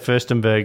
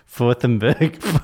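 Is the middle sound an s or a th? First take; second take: s; th. First: The middle consonant is a clear s sound. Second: The middle consonant is a lisped th sound. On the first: This is the intended pronunciation. The speaker calls it right. "he's trying to say Furstenberg" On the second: A child missing front teeth says it this way. The speaker calls it wrong. "but he's actually saying Fourthenberg"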